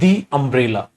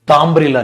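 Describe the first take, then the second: First: 'The' is said with a long 'ee' vowel. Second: 'The' is said with a short 'uh' vowel. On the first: The speaker calls it right. "जब इसके साथ vowel sound हो तो इसको दी बोल देते हैं" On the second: The speaker calls it wrong. "द umbrella नहीं"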